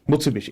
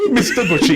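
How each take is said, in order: First: It is said as the standard brand name. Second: It is said as two words, 'Mister Bushy'. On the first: "It's actually not" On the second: "He used to say"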